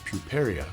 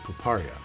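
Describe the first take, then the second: First: It is pronounced as an ordinary English word. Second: It is pronounced like a romanized Japanese word. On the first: "in English the word is puperia" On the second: "that's how you would pronounce it if you saw it as a Romanized Japanese word"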